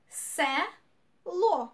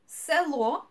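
First: "село" split in two, се, pause, ло; syllable by syllable. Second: Said in the usual way. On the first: Shown as a demonstration. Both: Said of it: "two syllables".

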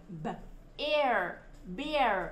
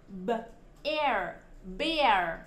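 Both takes have the same delivery.

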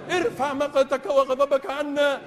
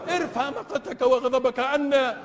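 No difference in how they are said.

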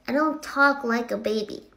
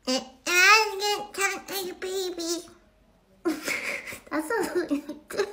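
First: Said in the usual way. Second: Put-on high, drawn-out baby talk; mock baby voice, slow and pitched up; whiny little baby denial, played for laughs. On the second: Shown as a demonstration. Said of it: "this would be like talking like a baby".

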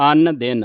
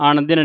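First: ਅਨ ਦਿਨ with two dental n, 'an din'; plain n sounds. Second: ਅਣ ਦਿਨ with retroflex n, 'aṇ din'; wrong nasal sound. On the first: Teacher shows the reading, ਅਨ ਦਿਨ with plain n. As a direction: keep both n of ਅਨ ਦਿਨ dental. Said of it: "ਲੱਗੇ ਦੋ ਨੰਨੇ". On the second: Teacher warns what not to say, ਅਣ ਦਿਨ with retroflex ṇ. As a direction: curl the tongue on the n of ਅਣ. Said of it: "ਨਹੀਂ ਕਹਿ ਦੇਣਾ". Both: Shown as a demonstration.

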